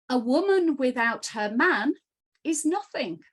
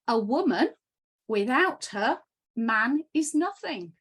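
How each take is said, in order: First: It is read straight through without pauses. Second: It pauses after 'woman' and after 'her'.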